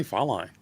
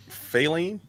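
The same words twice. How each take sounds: First: Faline as "FAH-line", rhyming with fine; own pronunciation. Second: Faline as "FAY-leen", rising as a question; questioned pronunciation. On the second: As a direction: ask Faline with a long "ay" and an "ee" ending. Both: Shown as a demonstration. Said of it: "I say Faline".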